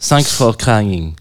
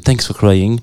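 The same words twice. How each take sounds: First: It is said with a French accent. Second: It is said with an American accent.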